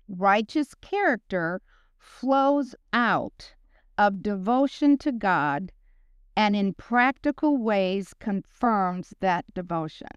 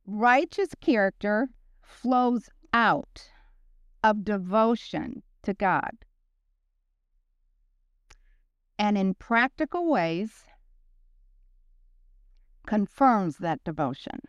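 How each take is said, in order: First: It is said at a normal speed. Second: It is said slowly.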